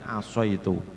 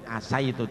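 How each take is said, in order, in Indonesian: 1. Huruf vokal pertama terdengar seperti 'o' tebal. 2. Huruf vokal pertama terdengar seperti 'a' tipis. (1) "tapi asoitu" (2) "tidak asaitu"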